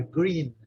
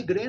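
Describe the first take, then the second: First: "green" with a clear long EE. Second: "green" with a wrong short E, like "gren"; mispronounced vowel. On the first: Teacher correcting students, clear long EE vowel. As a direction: stretch the EE in "green". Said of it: "É green". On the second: Teacher warning students off this, wrong E vowel. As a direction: say "green" as "gren", the error to avoid. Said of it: "Não tem nada de green, não". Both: Shown as a demonstration.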